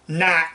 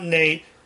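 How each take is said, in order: First: The name rhymes with hat. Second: The name rhymes with gate. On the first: The speaker calls it right. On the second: The speaker calls it wrong. "not Nate"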